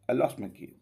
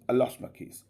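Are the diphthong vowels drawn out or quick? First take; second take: quick; quick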